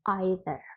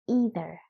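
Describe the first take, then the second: First: It is said with a British pronunciation. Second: It is said with an American pronunciation. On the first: "But if you are referring to British English" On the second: "If you are referring to American English"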